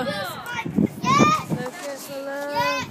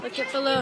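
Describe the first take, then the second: First: Very slow, stretched words; drawn-out. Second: Said in the usual way. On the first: Real, not acted. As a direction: drag every word out.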